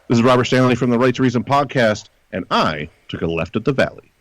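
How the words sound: It is said sincerely, in a straight tone.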